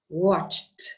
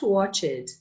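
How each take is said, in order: First: The ending is a plain t, one syllable. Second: An extra vowel before the ending makes two syllables. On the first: The speaker calls it right. "you never say the E sound" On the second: The speaker calls it wrong. "So not watch it"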